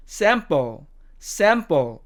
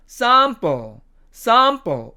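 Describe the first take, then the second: First: American "sample", front a; American demo of "sample"; American accent. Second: British "sample" with long ah; British demo of "sample"; British accent. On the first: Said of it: "미국식 발음으로는". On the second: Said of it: "영국식 발음으로 가면". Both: Shown as a demonstration.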